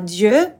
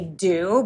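First: The name is pronounced the French way. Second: The name is pronounced like English do. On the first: This is the original word meaning gods. "It's the French word for gods" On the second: This is the easier everyday name used for the brand. "we say do because it's easier in English"

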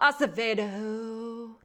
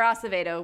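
First: The name is said in a sultry, exaggerated way. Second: The name is said in a plain, standard way. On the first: "That's the sexy way of pronouncing it" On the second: "which is standard"

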